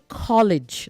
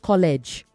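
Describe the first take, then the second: First: The last syllable sounds like lidge. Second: The last syllable does not sound like lidge. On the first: The speaker calls it right. "I will say say college" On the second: The speaker calls it wrong. "not college"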